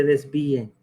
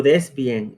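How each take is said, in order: First: DESVÍEN with i-e glided into one syllable; without hiatus. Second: DESVÍEN as des-VÍ-en; with hiatus. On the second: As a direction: say desvíen with the í stressed. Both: Shown as a demonstration. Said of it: "en vez de".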